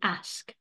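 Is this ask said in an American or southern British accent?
American. It is said in an American accent. "Američani a Britové na severu Británie říkají ask"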